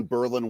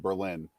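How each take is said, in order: First: "Berlin" stressed on the first syllable; local Wisconsin pronunciation. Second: "Berlin" stressed on the second syllable; usual city pronunciation. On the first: Comparing a Wisconsin town's name, "Berlin" said BER-lin. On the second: Contrasting with the Wisconsin town, "Berlin" said ber-LIN. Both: Shown as a demonstration. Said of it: "instead of Berlin".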